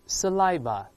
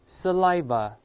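Both takes have the same delivery.

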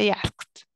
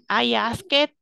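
First: The ending is a short t sound. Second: The ending is a full extra syllable. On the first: The speaker calls it right. "Esa ed como que siempre suena muy corta, o suena id o suena t" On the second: The speaker calls it wrong. "yo no voy a decir, I ask it, así, tal cual"

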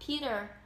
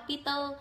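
First: It is said with an American accent. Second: It is said with a Vietnamese accent.

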